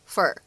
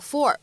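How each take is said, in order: First: The word has a weak, reduced vowel. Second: The word has a full, clear vowel.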